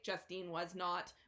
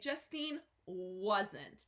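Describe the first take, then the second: First: The words 'was not' are said separately. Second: The words are contracted into 'wasn't'. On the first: It sounds robotic. The speaker calls it wrong. "we do not say" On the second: It sounds natural. The speaker calls it right. "We are going to say"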